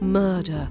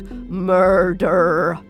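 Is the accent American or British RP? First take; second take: British RP; American. First: It is said in British RP without R. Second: It is said with an American R.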